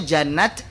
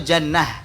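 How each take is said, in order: First: The word ends with a t sound. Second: The word ends with an h sound. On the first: It is written with an open ta. "pakai tak maftuha" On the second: It is written with a round ta. "pakai tak marbutah"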